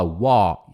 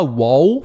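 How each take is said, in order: First: "wall" cut to an open "waw". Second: "wall" ending in a rounded U, like "wow"; wrong pronunciation. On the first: Teacher correcting, "wall" as bare "waw". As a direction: say "wall" lower, with no L or U. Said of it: "sem L". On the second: Teacher showing what not to say, U glide in "wall". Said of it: "Não fala wall". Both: Shown as a demonstration.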